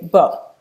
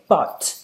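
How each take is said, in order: First: The final t is a glottal stop. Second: The final t is released with a breath. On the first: "people say but" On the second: "instead of saying but"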